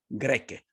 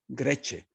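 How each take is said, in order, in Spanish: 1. La palabra termina en sonido k. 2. La palabra termina en sonido s.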